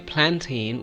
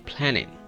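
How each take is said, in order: First: The T sound after the N is pronounced. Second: The T sound after the N is dropped. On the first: The speaker calls it wrong. "Rather than we say planting" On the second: The speaker calls it right. "we should say planning"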